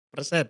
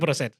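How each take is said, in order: First: The word begins with the sound 'per'. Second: The word begins with the sound 'pro'. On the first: The speaker calls it right. "Persen, bukan prosen" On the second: The speaker calls it wrong. "bukan prosen"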